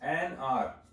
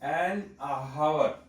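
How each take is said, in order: First: The word starts straight on the vowel sound. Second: The h sound is pronounced before 'our'. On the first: The speaker calls it right. "ये होता है एन आर" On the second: The speaker calls it wrong. "H को अगर आप pronounce करेंगे तो गड़बड़ हो जाएगी। एन हावर नहीं होता"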